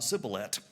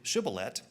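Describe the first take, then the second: First: The word begins with an 's' sound. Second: The word begins with a 'sh' sound. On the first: The speaker calls it wrong. "it comes out sibboleth" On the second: The speaker calls it right. "they try to say shibboleth"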